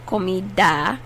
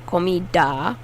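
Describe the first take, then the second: Both takes have the same delivery.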